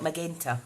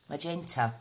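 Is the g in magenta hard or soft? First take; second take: hard; soft. First: The g is hard, like in go. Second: The g is soft, like a j. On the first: The speaker calls it wrong. "Not magenta" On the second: The speaker calls it right. "Soft G"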